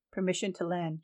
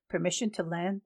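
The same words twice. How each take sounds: First: "Permission to land," said with falling end; granting statement. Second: "Permission to land?" asked with rising end; asking question. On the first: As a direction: grant it firmly, voice dropping at the end. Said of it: "John said". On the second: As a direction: ask for permission, voice lifting at the end. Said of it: "the soldier asked". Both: Acted.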